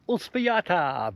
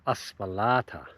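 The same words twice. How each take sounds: First: The name is said with a Spanish accent. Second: The name is said with an English accent.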